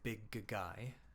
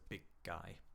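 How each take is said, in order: First: The g is released twice in a row. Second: The first g is held silent as a stop. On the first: The speaker calls it wrong. "Don't say big guy" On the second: The speaker calls it right. "the first one disappears, becomes a, a stop"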